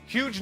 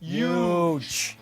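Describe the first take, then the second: First: The word begins with a plain H sound. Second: The word begins with a Y sound.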